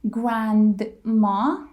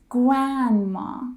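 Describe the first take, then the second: First: The D after the N is pronounced. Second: The D after the N is dropped. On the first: The speaker calls it wrong. "It's not grandma" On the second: The speaker calls it right. "When D comes after N, we drop the D"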